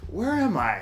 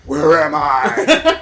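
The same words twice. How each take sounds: First: The question sounds friendly and confused. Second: The question sounds hostile and threatening. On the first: The character is lost and means no harm. "his tone of voice like, ... sounds friendly" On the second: The character is a menacing villain. "instead of like"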